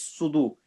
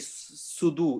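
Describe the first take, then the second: First: The first sound is heavy, with a full mouth. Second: The first sound is light, with an empty mouth. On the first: The speaker calls it right. "the swad is full mouth" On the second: The speaker calls it wrong. "Don't say sudu"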